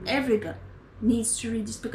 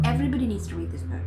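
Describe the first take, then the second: First: "Everybody" stressed, then "needs to read this book" said deliberately; measured emphasis. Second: Fast, tumbling "everybody needs to read this book"; rushed plea. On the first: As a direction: spell it out word by word. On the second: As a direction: blurt it out quickly. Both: Real, not acted.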